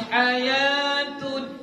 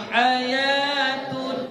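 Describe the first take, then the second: The two takes are said the same way.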